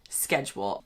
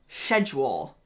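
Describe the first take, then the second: First: The C sound in the word is kept. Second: The C sound in the word is dropped. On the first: This is not how it is said in the UK. "not schedule" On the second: This is how it is said in the UK. "in the U K, we pronounce schedule as schedule"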